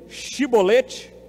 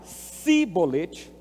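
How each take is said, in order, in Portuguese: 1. A palavra começa com o som 'sh'. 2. A palavra começa com o som 's'. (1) "se eles responderam shibolete, então está certo" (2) "percebeu a diferença? Shi, si"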